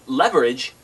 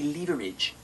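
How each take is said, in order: First: It is said with an American pronunciation. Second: It is said with a British pronunciation.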